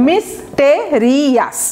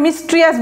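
First: মিস্টেরিয়াস slowly broken into "mis-te-ri-as"; correct, syllable by syllable. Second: মিস্ট্রিয়াস squashed to "mis-tri-as"; mispronunciation. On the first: Teacher models the adjective, মিস্টেরিয়াস slow with a full "te". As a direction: stretch out each syllable of মিস্টেরিয়াস. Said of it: "এটার উচ্চারণ ঠিক আছে". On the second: Teacher shows the forbidden form, মিস্ট্রিয়াস with t and r run together. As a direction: drop the "te" syllable from মিস্ট্রিয়াস. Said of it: "মিস্ট্রিয়াস বলা যাবে না". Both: Shown as a demonstration.

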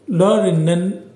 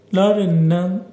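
Both takes have the same delivery.

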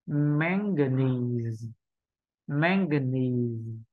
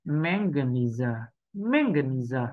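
First: "manganese" drawn out slowly, ending on a plain z; long "nee" in "manganese", closed by z; final schwa dropped. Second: "manganizer" with the final z voiced as an extra "zə" syllable; four-syllable "manganizer", a practice schwa on the end. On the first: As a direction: say "manganese" slowly with no vowel after the z. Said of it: "hãy bỏ đi âm ờ". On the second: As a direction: say "manganizer" slowly, joined up, ending on zə. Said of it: "Như thế là đã có ngữ điệu rồi". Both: Shown as a demonstration.

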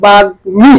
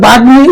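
First: বাগ্মী as "bag-mi", m pronounced; sounded m. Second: বাগ্মী as "baggi", m left out; expected doubled g. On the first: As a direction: say বাগ্মী with a clear g then m. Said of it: "কিন্তু না, হবে". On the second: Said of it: "উচ্চারণ হওয়ার কথা ছিল". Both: Shown as a demonstration.

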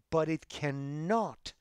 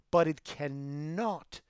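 Both takes have the same delivery.

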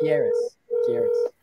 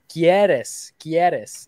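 First: "quieres" with a smooth English R; no rolled R. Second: "Quieres" with a tapped, rolled R. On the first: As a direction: say "quieres" without rolling the R. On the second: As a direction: roll the R in "Quieres". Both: Shown as a demonstration. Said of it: "No, but no roll".

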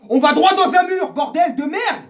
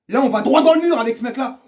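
First: Very high, loud outburst; furious shout. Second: Rising anger. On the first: Fan warning of disaster under this coach, furious. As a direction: explode on the repeat, swearing. Repeats it yelling with swear. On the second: First take, rising anger. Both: Real, not acted.

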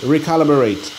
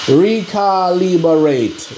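First: Said in the usual way. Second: Recalibrate sounded out very slowly, syllable by syllable; careful syllables. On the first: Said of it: "There you go". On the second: Shown as a demonstration. Hobbyist sounding out the word for viewers, slow careful syllables. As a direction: spell out Recalibrate slowly, re-ka-li-brate. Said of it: "let me see that word again".

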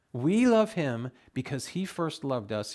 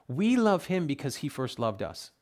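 First: We love him because he first loved us, slowed right down and louder; slow emphatic repeat. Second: Said in the usual way. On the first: Shown as a demonstration. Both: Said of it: "repeated slower".

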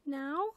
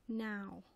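First: High, loud rising question; higher voice, lifting sharply at the end; questioning owlet. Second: Level statement, falling at the end; settled reply with no question in it; mother owl's answer. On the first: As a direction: ask it as a startled little owl. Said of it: "said Plop". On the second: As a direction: confirm it calmly as the mother. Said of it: "said his mother". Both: A narrator's reading.

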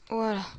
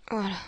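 The two takes are said the same way.

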